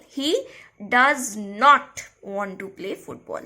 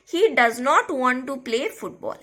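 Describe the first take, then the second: First: "does not" slowed and set apart by a pause; stress on not. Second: Said in the usual way. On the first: Shown as a demonstration. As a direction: lean hard on "not", drawing it out. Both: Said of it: "putting a stress on the word".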